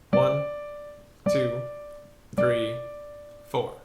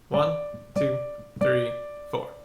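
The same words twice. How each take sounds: First: It is counted at a slow pace. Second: It is counted at a medium pace.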